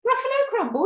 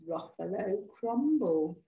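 First: High, loud shriek of alarm; hammed-up storybook horror; horrified monster. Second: Slow, measured storybook threat; deliberate menace. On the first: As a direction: echo it in panicked disbelief. Gruffalo repeats it in horror. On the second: Acted. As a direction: savour the dish name, unhurried. Mouse delivers the threat.

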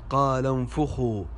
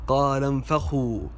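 First: "انفخوا" as unfukhu; damma on fa. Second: "انفخوا" as unfakhu, open a; fatha on fa. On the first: Teacher gives the correction, "انفخوا" said unfukhu. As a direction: say "انفخوا" with u after the f. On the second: Teacher shows a common mistake, "انفخوا" with fatha on fa. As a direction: say "انفخوا" with a after the f. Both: Shown as a demonstration. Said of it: "الفاء مضمومة وليست مفتوحة".

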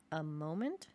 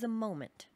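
First: "A moment" rising sharply at the end; "moment" swoops up into a question; questioning echo. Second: "a moment" stated with a falling end; "moment" lands firmly, going down; declarative reveal. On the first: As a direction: query "A moment" in puzzlement. Listener echoes it as question. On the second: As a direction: announce "a moment" as the subject. Storyteller announces the subject. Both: Acted.

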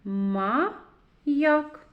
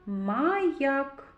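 First: Маяк split into МА, pause, ЯК; syllable by syllable. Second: Said in the usual way. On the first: Shown as a demonstration. Teacher reads with children, syllable by syllable. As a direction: read Маяк in two separated syllables, Ма – як. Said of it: "Прочитаємо". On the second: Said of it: "звуковий аналіз слова".

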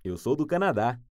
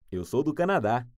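The two takes are said the same way.

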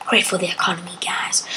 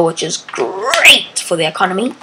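First: Hushed whispered aside. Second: Said in the usual way. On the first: Real, not acted. Joking to viewers about the economy, whispered. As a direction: whisper the joke to the camera.

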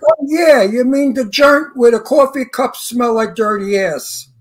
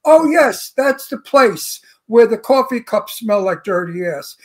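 First: Brooklyn tough guy. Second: Prissy version. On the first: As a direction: lean into thick Brooklyn, slow. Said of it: "let me give you the whole line". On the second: Mocking the director's rewritten line, prim and slow. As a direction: say it precious and proper. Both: Retold or imitated.

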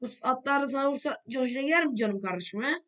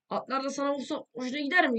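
First: Mocking taunt. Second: Higher, sharper taunt; mocking taunt. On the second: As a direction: needle him harder. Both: Real, not acted. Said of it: "repeated taunt".

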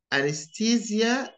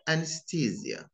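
First: "Anesthesia" said in the British way; British pronunciation. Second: "anesthesia" said in the American way; American pronunciation. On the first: Teacher showing learners the British accent. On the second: Teacher showing learners the American accent. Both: Shown as a demonstration. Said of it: "notice the differences between them".

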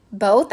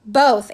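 First: "Both?" with rising pitch; questioning. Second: "Both," loud with falling pitch; answering firmly. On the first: Missus Pepper querying her son, "Both?" rising as a question. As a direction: ask "Both?" as a startled question. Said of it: "asked Missus Pepper". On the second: Boston confirming to his mother, "Both," falling and firm. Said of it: "answered Boston". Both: A narrator's reading.

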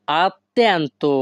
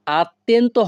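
First: "attento" drawn out very slowly, every syllable clear, a-ttento with a held double t; correct pronunciation. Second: "attento" said quickly and pitched higher, final o clipped off; a rushed, higher "attento" that swallows its ending; wrong pronunciation. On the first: Teacher shows viewers the right "attento", very slow and careful. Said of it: "উচ্চারণটা হবে". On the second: Teacher shows viewers the wrong way, quick "attento" with clipped ending. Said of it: "হবে না কিন্তু". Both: Shown as a demonstration.

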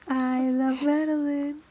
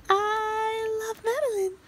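First: Slow, lightly raised tender coo. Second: Slow, much higher sing-song croon. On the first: Mom cooing to baby Madeline, gentle tender coo. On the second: Mom crooning to baby Madeline in high baby talk. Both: Real, not acted.

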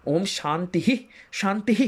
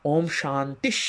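First: শান্তিঃ with a full h before the next শান্তি; each শান্তিঃ with its own breathed h; wrong way. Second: শান্তিশ ending in a half sh sound; right way, sh sandhi. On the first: Teacher showing the incorrect reading of the chant. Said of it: "না বলে". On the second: Teacher showing the correct Sanskrit sandhi. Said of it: "তালব্যস্বয় হসন্তের মতো". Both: Shown as a demonstration.

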